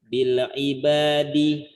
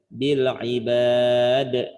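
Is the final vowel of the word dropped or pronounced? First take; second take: pronounced; dropped. First: The word ends with its final vowel sounded. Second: The word ends abruptly without its final vowel. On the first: "dibaca dulu dengan harokat akhirnya"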